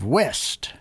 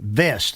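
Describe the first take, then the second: First: The word begins with a w sound. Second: The word begins with a v sound.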